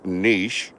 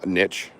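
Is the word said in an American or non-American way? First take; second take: non-American; American. First: It is said the producer's non-American way. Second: It is said with an American pronunciation.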